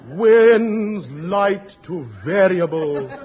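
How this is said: It is said mournfully, like a disaster.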